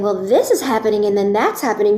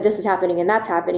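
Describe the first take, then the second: First: It is said in a lively, engaging way. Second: It is said in a flat, dull way.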